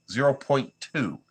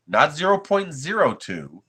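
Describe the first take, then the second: First: Slow "Zero point two" with the weight on "Zero", falling at the end; firm, slow "Zero point two", stressing "Zero". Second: "zero point zero two" said slowly, each word spelled out as the wrong figure; slow, pointed "Not zero point zero two" with weight on the second "zero"; stress on the wrong value. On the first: Restating the right layer height to chat, slow and firm. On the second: Correcting a viewer's misread layer height, slow and pointed. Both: Real, not acted.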